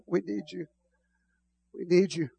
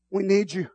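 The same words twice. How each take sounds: First: Quiet. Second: Said in the usual way. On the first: Real, not acted. Hushed prayer.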